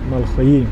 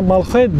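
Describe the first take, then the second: First: The word ends in an 'i' vowel. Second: The word ends in an 'e' vowel. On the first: It is the correct form. The speaker calls it right. "fakat doğrusu Malxoyi" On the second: It is the short form people use. The speaker calls it wrong. "kısaca Malxoye deniliyor"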